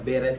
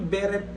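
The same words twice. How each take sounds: First: The word ends like 'ballet', with no final t. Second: The word ends with a clearly pronounced t. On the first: The speaker calls it right. "kung babasahin mo siya, beret talaga ... Parang ano, ballet" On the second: The speaker calls it wrong. "Acceptable. Pero mali"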